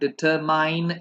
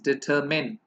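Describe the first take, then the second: First: The last syllable sounds like 'mine'. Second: The last syllable sounds like 'min'. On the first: The speaker calls it wrong. "It's not डिटरमाइन" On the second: The speaker calls it right. "It's डिटरमिन"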